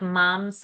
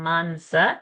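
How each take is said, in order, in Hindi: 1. s से पहले की नासिक्य ध्वनि w जैसी सुनाई देती है। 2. s से पहले की नासिक्य ध्वनि स्पष्ट n है। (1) "Mamsa anuswara will become wa because sa is there. So mamsa" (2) "and not mamsa or mansa"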